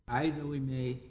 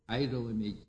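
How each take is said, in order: The two takes are said the same way.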